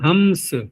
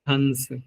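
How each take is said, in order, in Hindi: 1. नासिक्य ध्वनि स से पहले m जैसी लगती है। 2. नासिक्य ध्वनि स से पहले n जैसी लगती है। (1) "हम्स ऐसे भी बोल सकते हैं" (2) "ऐसा लगेगा आपको कि नकार बोल रहे हैं हम"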